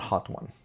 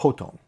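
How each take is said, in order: First: It is said as two words, hot one. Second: It is said as ho-tone, with a t-onset. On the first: The speaker calls it wrong. "it's not Hot One" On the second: The speaker calls it right. "It's Hotone"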